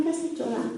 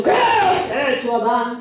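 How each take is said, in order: First: Much softer, restrained question; gentle God. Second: Wrong angry tone. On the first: Preacher showing how God really asked Adam, soft and gentle. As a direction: ask it quietly, without accusation. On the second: Preacher showing how God did not speak to Adam, mock scolding. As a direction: stretch QUÉ into an accusing mock outburst. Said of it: "No le ha dicho". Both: Acted.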